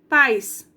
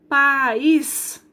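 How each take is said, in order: First: The two vowels are joined in one syllable. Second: The two vowels fall in separate syllables. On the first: "Eu separei? Não" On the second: "Vendo que eu paro?"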